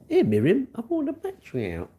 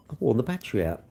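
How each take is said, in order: First: High, carrying call to another room. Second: Said in the usual way. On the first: Real, not acted. Calling to Miriam in another room, high and carrying. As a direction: pitch it up to reach Miriam.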